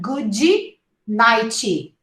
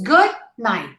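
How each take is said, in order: First: It ends with an added vowel sound. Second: It ends on the final t consonant. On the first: The speaker calls it wrong. "Not good nighty" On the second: The speaker calls it right. "Two syllables"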